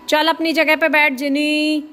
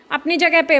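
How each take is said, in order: First: Firm raised voice, higher and louder; scolding the pet. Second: जगह hit high and loud with a falling end; firm repeated order. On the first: Owner scolding Jini back to her spot, loud and firm. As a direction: order the dog back to its place. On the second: Owner repeating the order to Jini, stress on जगह. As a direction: push जगह hard, higher and louder. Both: Real, not acted.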